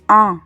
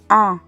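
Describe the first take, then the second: First: The vowel is nasal, air through the nose. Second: The vowel is nasal, air through the nose.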